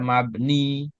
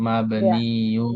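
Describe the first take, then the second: First: The word ends in a plain '-i'. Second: The word ends in '-iun'. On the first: The speaker calls it wrong. "jangan dibaca mabni" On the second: The speaker calls it right. "tapi mabniun"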